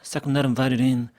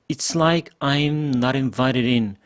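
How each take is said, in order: First: The opening words are squeezed into a short blur. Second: Each opening word is pronounced clearly and separately. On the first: "싸끔 이렇게 가버렸죠" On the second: "이렇게 발음하면 잘 들렸을 텐데"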